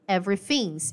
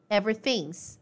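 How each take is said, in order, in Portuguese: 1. O verbo é reduzido e unido à palavra anterior. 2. O verbo é reduzido e unido à palavra anterior.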